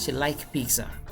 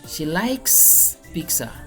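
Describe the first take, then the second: First: The final s of the verb is left out. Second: The final s of the verb is clearly pronounced. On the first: The speaker calls it wrong. "If you don't pronounce it, then you are still wrong" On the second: The speaker calls it right. "You must pronounce the last s"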